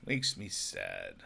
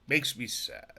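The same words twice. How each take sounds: First: A much lower, slow, mopey mock-sad voice. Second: Said in the usual way. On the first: Shown as a demonstration. Repeating his complaint about voices, in a deep mock-sad tone. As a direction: drag it out low like a pouty kid.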